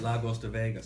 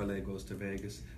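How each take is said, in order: First: LA is said as one syllable, like 'la'. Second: LA is said as two separate letters. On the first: "he was calling it La Goes to Vegas" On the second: "I quite like L A Goes to Vegas"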